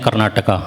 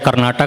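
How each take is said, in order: First: The word ends with an added vowel. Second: The word ends without a final vowel. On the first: The speaker calls it wrong. "एक्स्ट्रा ए लगा देते हैं" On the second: The speaker calls it right. "राज्य है कर्नाटक"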